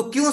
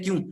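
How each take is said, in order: First: "क्यों" asked with a rising tune; questioning why. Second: Said in the usual way. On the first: Shown as a demonstration. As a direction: lift the end of "क्यों" like a real question. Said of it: "से पढ़ना". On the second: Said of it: "आपको ऐसे सवाल करने हैं".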